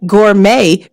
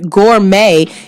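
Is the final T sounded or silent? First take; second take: silent; sounded. First: The final T is silent. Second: The final T is pronounced.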